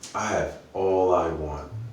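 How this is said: It sounds happy and content.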